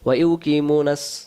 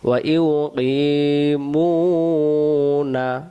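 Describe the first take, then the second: First: It is said quickly with the long vowels shortened. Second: It is said slowly with the long vowels held. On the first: The speaker calls it wrong. "আর যদি তাড়াহুড়া করে বলি" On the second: The speaker calls it right. "তাহলে বাদ দিবেন না"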